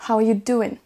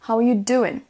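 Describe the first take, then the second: Both takes have the same delivery.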